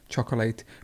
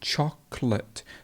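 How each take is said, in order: First: The word is said with three syllables. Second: The word is said with two syllables. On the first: The speaker calls it wrong. "Lots of people say chocolate" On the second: The speaker calls it right. "you remove a syllable"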